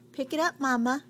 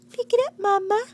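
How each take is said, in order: First: Said in the usual way. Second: Put-on higher, louder bossy toddler voice; loud demanding baby voice. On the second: Voicing baby's demand.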